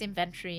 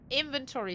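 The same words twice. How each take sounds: First: It is said with a British English pronunciation. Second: It is said with an American pronunciation.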